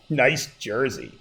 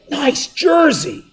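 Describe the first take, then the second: First: The words are said in a mocking, sarcastic tone. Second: The words are said in a warm, sincere tone. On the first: The jersey actually looks stupid. "But I actually meant he looks stupid" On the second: The jersey really looks great. "That's an awesome looking jersey"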